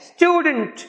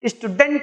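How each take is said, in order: First: The stress is on the first syllable. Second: The stress is not on the first syllable. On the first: The speaker calls it right. "यहां stew पे stress है" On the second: The speaker calls it wrong. "Student नहीं है"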